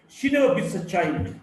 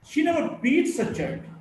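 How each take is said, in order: First: The stress is on the word child. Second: The stress is on the word beats.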